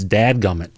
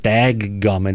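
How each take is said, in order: First: The first word ends with a d sound. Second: The first word ends with a g sound. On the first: The speaker calls it right. "it's dad gummit" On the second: The speaker calls it wrong. "it's not dag gummit"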